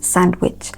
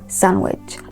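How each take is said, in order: First: The D sound in the middle is pronounced. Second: The D sound in the middle is silent. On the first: The speaker calls it wrong. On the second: The speaker calls it right. "Please say after me"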